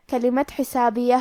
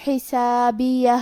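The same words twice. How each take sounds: First: Said in the usual way. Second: حسابیہ slowed, final ہا clearly sounded; recited slowly. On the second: Shown as a demonstration. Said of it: "آخری میں ہمیں ہا کو ظاہر کرنا ہے".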